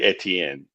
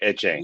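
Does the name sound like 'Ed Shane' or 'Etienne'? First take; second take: Etienne; Ed Shane. First: The name sounds like one word, Etienne. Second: The name sounds like two words, Ed Shane. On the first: This is the original French form of the name. "But it's really Etienne" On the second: This is the shortened Creole form of the name. "Creole version"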